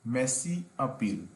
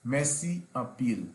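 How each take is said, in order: Both takes have the same delivery.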